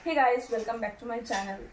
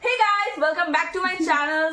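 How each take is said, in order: First: It is said softly with little energy. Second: It is said with more energy and liveliness. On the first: The speaker calls it wrong. "একটু নরম ভাবে রাখি, কিন্তু এভাবে রাখলে একটু ঢিমা মাছ লাগবে" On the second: The speaker calls it right. "না একটু মানে এমন রাখি"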